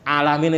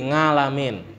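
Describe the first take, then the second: First: The word starts directly with a vowel sound. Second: The word starts with an added ng sound. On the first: The speaker calls it right. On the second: The speaker calls it wrong.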